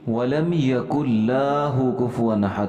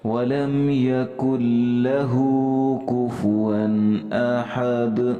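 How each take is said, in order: First: The vowel after the L is drawn out long. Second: The vowel after the L is kept short. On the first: The speaker calls it wrong. "यूं पढ़ते हैं लाहु, हालांकि ऐसा नहीं है" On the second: The speaker calls it right. "यहाँ पे सिर्फ ज़बर है, यकुल्लहु"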